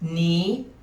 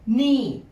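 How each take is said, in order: First: The word is said with a high tone. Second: The word is said with a falling tone. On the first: "High tone" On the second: "Falling tone"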